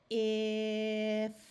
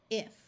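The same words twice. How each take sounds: First: The word is said slowly, sounds drawn out. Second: The word is said quickly, sounds blended together. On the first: "we will say it slowly" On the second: "and then say it fast"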